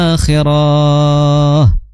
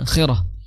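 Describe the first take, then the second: First: The ra vowel is held long. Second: The ra vowel is kept short. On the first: The word would contain a lengthening letter. The speaker calls it wrong. "kalau seandainya ro-nya ada alif, maka dibacanya" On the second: The word has no lengthening letter. The speaker calls it right. "maka dibaca biasa satu harokat"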